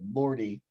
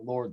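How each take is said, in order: First: The name has two syllables ending in 'ee'. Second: The name is one syllable with no final vowel. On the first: The speaker calls it wrong. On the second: The speaker calls it right.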